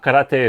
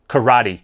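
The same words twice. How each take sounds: First: It is pronounced the Japanese way. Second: It is pronounced the English way. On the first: "karate is the Japanese pronunciation" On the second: "what's a Western way of saying it?"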